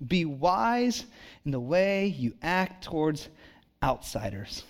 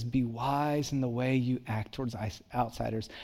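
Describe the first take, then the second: First: Slow, weighty reading of the verse; slow scripture reading. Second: Softer, offhand quote of the verse; quiet scripture quote. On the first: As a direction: lean into every word, slowly. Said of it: "Now listen to this". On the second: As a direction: murmur the verse back to yourself. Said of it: "and it says". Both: Shown as a demonstration.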